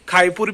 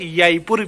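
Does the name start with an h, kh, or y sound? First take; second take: kh; y. First: It begins with a rough kh sound. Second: It begins with a y sound. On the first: "तीन साउंड सुने हैं" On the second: "तीन साउंड सुने हैं"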